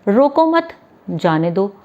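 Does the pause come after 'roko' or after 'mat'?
after mat. The pause comes right after 'mat'.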